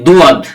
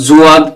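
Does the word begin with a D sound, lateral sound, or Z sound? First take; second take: D sound; Z sound. First: It begins with a plain D sound. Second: It begins with a Z sound. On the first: "দুয়াদ হবে না, এটা ভুল" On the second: "এগুলো ভুল। জুয়াদ হবে না"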